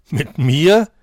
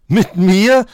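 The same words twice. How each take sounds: First: Incredulous Mit mir with a rising tune; a mocking, astonished question; scoffing surprise. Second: Second Mit mir much higher and louder, rising; outraged disbelief, topping the first Mit mir; mocking astonishment. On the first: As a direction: Mit mir asked in loud disbelief. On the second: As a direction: Mit mir shrieked up in scornful surprise. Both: A narrator's reading. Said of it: "spottete der Hase erstaunt".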